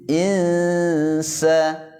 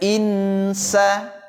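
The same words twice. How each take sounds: First: The n is hidden in a nasal hum. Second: The n is pronounced clearly and distinctly. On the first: The speaker calls it right. "suara n-nya itu diarahkan kepada huruf sin" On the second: The speaker calls it wrong. "jangan dibaca insa"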